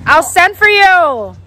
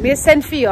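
First: "send for you" drawn out, higher and slow; emphatic insistence. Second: Said in the usual way. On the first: Real, not acted. Niece promises uncle a trip, slow emphatic "send for you".

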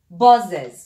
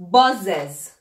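First: "Buzzes" punched much louder, falling hard; emphatic repeat. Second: "Buzzes" said clearly as BUZ-zez, level fall; teacher modelling "Buzzes", steady falling tone; model pronunciation. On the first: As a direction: hammer home "Buzzes" for the class. (تکرار «Buzzes» با تأکید و صدای بلند) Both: Shown as a demonstration. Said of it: "باز".

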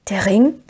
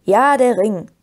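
First: Stunned question with rising end; aghast. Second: Firm answer, not a question; matter-of-fact confirmation. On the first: Frodo hears his friends know his secret, aghast. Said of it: "sagte Frodo nun völlig entgeistert". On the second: Merry confirms to stunned Frodo that he knows, matter-of-fact. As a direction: confirm it knowingly. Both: A narrator's reading.

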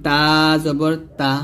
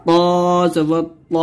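First: Light, open t in তা; light Arabic t on তা; thin ta. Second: প said as a heavy, rounded Arabic t; heavy emphatic t on প; thick To. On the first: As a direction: keep তা thin, tongue light. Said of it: "তখন পাতলা করে বলবেন". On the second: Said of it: "বলতে হবে মোটা করে". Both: Shown as a demonstration.

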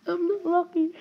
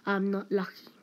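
First: High, whimpering lament; mock wail. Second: Said in the usual way. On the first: Player lamenting having no luck, mock wailing. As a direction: wail it like a hard-luck case.

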